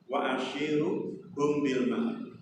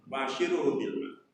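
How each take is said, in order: First: Slow, soft recited Arabic; Quranic recitation. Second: Said in the usual way. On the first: Shown as a demonstration. Preacher quoting God's words to Ibrahim, slowly recited. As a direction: intone it like a verse being recited. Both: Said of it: "Allah menyampaikan pada beliau".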